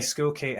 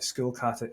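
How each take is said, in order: First: The surname ends with a 'kate' sound. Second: The surname ends with a 'kata' sound. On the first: This is how the name is commonly heard. The speaker calls it wrong. "a Skullkate has been how I've, I've heard it" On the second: This follows the name's Dutch origin. The speaker calls it right. "I think it's a Dutch name"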